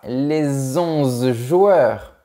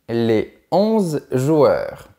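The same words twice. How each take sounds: First: A linking consonant joins the words. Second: The words are said without a linking consonant. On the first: The speaker calls it wrong. "On ne dit pas" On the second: The speaker calls it right. "on dit"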